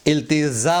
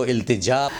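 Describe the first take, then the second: First: "التجا" as iltizaa, with z; mispronounced z for j. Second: "التجا" as iltijaa, with j; careful iltijaa for "التجا"; correct j sound. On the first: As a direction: say "التجا" with z replacing j. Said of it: "بول دیتے ہیں". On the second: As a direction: say "التجا" with a clear j, not z. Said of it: "جب اس کو التجا". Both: Shown as a demonstration.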